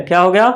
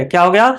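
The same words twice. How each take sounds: The two takes are said the same way.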